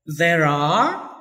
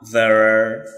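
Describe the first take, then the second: First: Are said full, like ah; strong form of there are. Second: Are almost gone after there; weak form of there are. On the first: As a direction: open vowel in are. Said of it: "for the strong". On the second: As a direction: swallow are. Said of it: "for the weak". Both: Shown as a demonstration.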